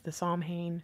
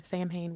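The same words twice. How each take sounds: First: "Samhain" said SAHM-hayn; unsure pronunciation. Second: "Samhain" said SAM-hayn; alternative pronunciation. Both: Shown as a demonstration. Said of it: "whatever that's called".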